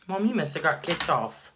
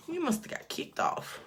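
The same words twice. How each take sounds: First: Said in the usual way. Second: High unvoiced whispered repeat. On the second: Real, not acted. Whispering to mom who got kicked off the stream.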